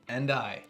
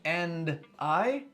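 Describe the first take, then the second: First: The final consonant links into the vowel. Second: The two words are said separately. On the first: The speaker calls it right. "linking consonants to vowels" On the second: The speaker calls it wrong. "instead of saying"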